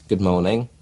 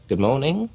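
First: Said in the usual way. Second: "Good morning" lifted higher with a rising tune on "morning"; a bit of something. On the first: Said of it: "instead of just going". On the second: Shown as a demonstration. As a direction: give "morning" an inviting upward lilt. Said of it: "I go".

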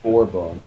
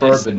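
First: "bourbon" as BOR-bon; rejected pronunciation. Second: "bourbon" as BUR-bun; own pronunciation. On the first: Mimicking the friend's version, "bourbon" as BOR-bon. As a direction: say "bourbon" with a BOR first syllable. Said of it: "I say bourbon, not". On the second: Defending their accent to a friend, "bourbon" as BUR-bun. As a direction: say "bourbon" with a BUR first syllable. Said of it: "that's how I pronounce them". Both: Shown as a demonstration.

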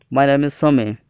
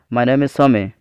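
No difference in how they are said.

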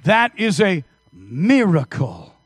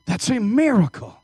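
First: Slow, weighty stress on That; emphatic. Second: Said in the usual way. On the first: Real, not acted. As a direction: land That slowly and heavily. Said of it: "emphatic declaration".

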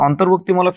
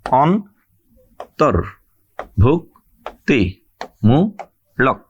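First: Said in the usual way. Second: অন্তর্ভুক্তিমূলক very slowly in six separate syllables. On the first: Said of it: "কি কি অক্ষর আছে". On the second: Shown as a demonstration. Teacher shows students the syllables, each one said separately and slowly. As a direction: break অন্তর্ভুক্তিমূলক at every syllable, long pause after each. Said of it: "আমি দেখাচ্ছি, কি কি অক্ষর আছে".

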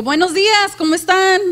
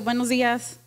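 First: High, loud, cheerful greeting; bright greeting. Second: Said in the usual way. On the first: Shown as a demonstration. Preacher demonstrating tone to congregation, loud cheerful greeting. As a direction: greet the church with real enthusiasm. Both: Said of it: "el tono de voz".

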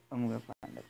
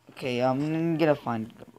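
First: Much softer echo of the line; a much softer repeat to himself; muttered to self. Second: Said in the usual way. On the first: Real, not acted. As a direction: say it again under your breath. Repeats the line under breath.

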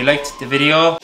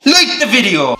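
First: Said in the usual way. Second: High, loud playful order; mock command. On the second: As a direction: order the viewers in a mock shout.

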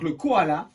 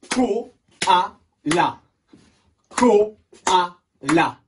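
First: Said in the usual way. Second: Loud "Koala" clapped out in three beats; syllable by syllable. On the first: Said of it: "il a trois syllabes". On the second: Shown as a demonstration. Teacher shows pupils the clapping, syllable by syllable. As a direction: punch out Ko, a, la with gaps in "Koala". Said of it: "On va le taper".

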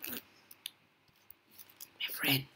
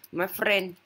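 First: Hushed sneaking whisper. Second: Said in the usual way. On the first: Real, not acted. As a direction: whisper it so nobody hears. Sneaking near the beast.

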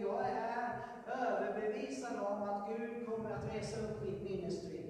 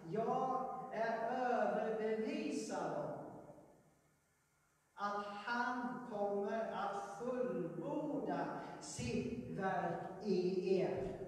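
First: Said in the usual way. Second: "Jag är överbevisad om att han kommer att fullborda sitt verk i er" read very slowly and weightily; slow, weighty quoting of scripture; solemn scripture reading. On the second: Shown as a demonstration. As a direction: read Paulus's true words with slow gravity. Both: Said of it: "Han skriver inte".

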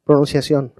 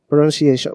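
First: Said in the usual way. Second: Pronunciation as English "pro-nun-see-ay-shun". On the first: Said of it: "pronunciación en inglés, cómo se puede". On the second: Shown as a demonstration. Teacher trying the word in English, Spanish-accented pronunciation. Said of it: "pronunciación en inglés".

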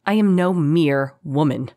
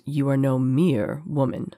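First: Proud, strained snarl. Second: Slow, smooth captor's voice; silky concession, taken slowly; smooth, faintly amused. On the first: Choked captive corrects her captor, defiant snarl. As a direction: snarl it while fighting to stay conscious. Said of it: "snarled Karis, fighting to stay conscious". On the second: Captor agrees with his offended prisoner, smoothly amused. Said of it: "said the voice smoothly". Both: A narrator's reading.

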